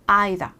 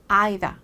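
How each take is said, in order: First: It is said with a British pronunciation. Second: It is said with a British pronunciation.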